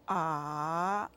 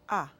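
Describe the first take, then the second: First: The pitch dips down then rises. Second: The pitch is short, light and unmarked. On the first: "Go down and up" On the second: "Let's do the fifth tone"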